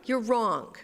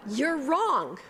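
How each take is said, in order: First: You're hit loud, falling; loud stress on You're, falling. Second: Wrong said high and loud through a laugh; giggling blunt retort; laughing you're wrong. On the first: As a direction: lean on You're firmly. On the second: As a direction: laugh as you punch wrong. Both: Shown as a demonstration. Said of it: "How's that for a pastoral response?".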